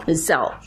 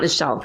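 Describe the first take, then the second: First: "cell" said with an s sound; corrected pronunciation. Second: "shell" said with a sh sound; mispronounced word. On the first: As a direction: say "cell" with a clean s at the start. Corrects the slip. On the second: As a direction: say "shell" with sh at the start. Repeats own slip to correct it. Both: Real, not acted.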